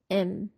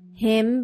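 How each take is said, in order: First: The word is said weakly without the h. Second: The word is said fully with its h sound.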